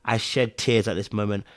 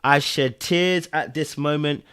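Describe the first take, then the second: First: Said in the usual way. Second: Slow, deliberate admission; emphatic confession. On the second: Real, not acted. Viewer admitting the scene made them cry, slow and emphatic. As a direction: spell out the confession slowly.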